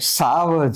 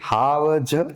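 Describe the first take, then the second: First: The word begins with an s sound. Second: The word begins with an h sound. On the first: This is the standard form of the word. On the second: This is how people in the Gir region say it.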